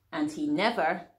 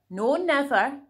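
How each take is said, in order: First: Said in the usual way. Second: "no never" lifted higher and louder; storyteller stressing "no never" for the kids; emphatic repeat. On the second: A narrator's reading. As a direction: punch "never" the second time.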